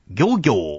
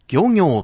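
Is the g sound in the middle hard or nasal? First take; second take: hard; nasal. First: The middle g is a hard stop. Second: The middle g is a nasal sound. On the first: The speaker calls it wrong. "ではなくて" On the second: The speaker calls it right. "この行には鼻濁音があります"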